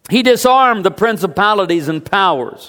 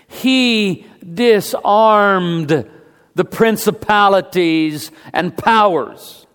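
First: The sentence is spoken at a faster pace. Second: The sentence is spoken at a slower pace.

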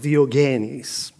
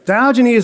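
First: The name is said with a Greek pronunciation. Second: The name is said with an American pronunciation. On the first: "I'll try to say it in Greek" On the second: "We'll say it in American"

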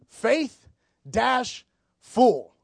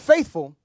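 First: The stress falls on the second syllable. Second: The stress is on the first syllable. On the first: It means being full of faith. The speaker calls it right. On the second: It means loyal or steady. The speaker calls it wrong. "Not faithful"

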